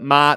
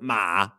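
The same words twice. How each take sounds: First: It carries the tone for the mother word. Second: It carries the tone for the horse word. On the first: The word means mother. "that's mother" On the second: The word means horse. "that's horse"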